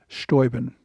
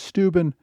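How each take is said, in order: First: The name uses its older pronunciation. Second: The name uses its modern pronunciation. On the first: This is how the name was said in the eighteenth century. "in the eighteenth century, his name was pronounced Steuben" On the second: This is how the name is said today. "the modern pronunciation is Steuben"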